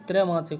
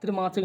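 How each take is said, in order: First: "त्रैमासिक" with trai; correct form. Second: "त्रिमासिक" with tri; short i in the first syllable of "त्रिमासिक"; wrong form. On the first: Teacher correcting students, ai vowel. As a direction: open ai in the first syllable of "त्रैमासिक". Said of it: "त्रैमासिक होता है". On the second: Teacher quoting the mistake, i vowel. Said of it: "त्रिमासिक नहीं". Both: Shown as a demonstration.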